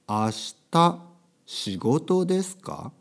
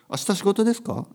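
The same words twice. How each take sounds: First: The sentence is spoken slowly. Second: The sentence is spoken quickly. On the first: "ゆっくりね" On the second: "早く言うといいんですけど"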